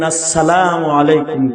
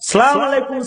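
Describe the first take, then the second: First: The greeting begins with the full 'as' syllable. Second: The greeting begins without the 'as' syllable. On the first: The speaker calls it right. "সালাম এমনি দিবেন" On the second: The speaker calls it wrong. "এগুলো বলবেন না"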